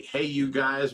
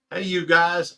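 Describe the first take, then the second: First: Said in the usual way. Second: Higher, louder shouted "Hey, you guys"; requested catchphrase shout. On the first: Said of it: "can we get". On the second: Shown as a demonstration. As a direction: belt out "Hey, you guys" like the famous movie line. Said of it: "can we get a 'Hey, you guys'".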